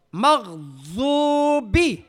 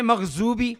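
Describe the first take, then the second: First: مغضوبی with tongue's side on upper molars at ض; correct dad. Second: مغضوبی with a z for ض; dad turned to z. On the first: Teacher modelling the third sound, heavy drawn dad in مغضوبی. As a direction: chant مغضوبی very slowly, thick ض. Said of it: "زبان کی کروٹ". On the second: Teacher showing others' mistake, z in مغضوبی. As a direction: say magh-zoobi for مغضوبی. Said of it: "کچھ زا سے بدلتے ہیں". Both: Shown as a demonstration.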